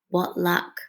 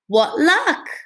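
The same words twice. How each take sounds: First: It is said in a quiet, plain voice. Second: It is said in a loud, excited voice.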